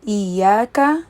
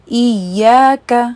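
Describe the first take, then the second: First: The y is short and single. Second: The y is held and doubled. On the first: The speaker calls it wrong. "सुकून वाला हिस्सा मिस करें" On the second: The speaker calls it right. "शद के साथ अदा करना है"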